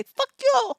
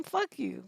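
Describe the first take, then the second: First: High-pitched mock Indian accent; playful imitation of an Indian accent; cute Indian accent. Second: Said in the usual way. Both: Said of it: "say it with your cute little Indian accent".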